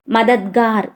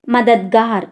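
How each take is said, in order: Both takes have the same delivery.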